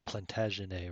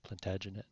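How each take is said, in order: First: Plantagenet with a French ending, -ay; French-style Plantagenet. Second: Plantagenet with an English ending, -et; English-style Plantagenet. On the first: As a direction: say Plantagenet the French way, silent final t. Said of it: "I think it's French". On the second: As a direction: say Plantagenet with the final t sounded. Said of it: "I don't know how to pronounce that". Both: Shown as a demonstration.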